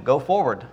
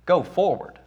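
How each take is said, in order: First: A hint of God's firm command, plain pitch; firm divine command. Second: A hint of Moses echoing the order in disbelief, pitched higher; incredulous echo. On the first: God repeats his command to Moses, firm and even. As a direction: lay down the order calmly, with no doubt. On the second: Moses repeats God's command back, higher and baffled. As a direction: repeat the order as if you can't believe it. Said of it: "He says".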